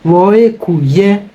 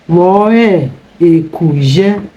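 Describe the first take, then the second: First: The phrase is said fast, dropping the e. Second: The phrase is said fully, keeping the e.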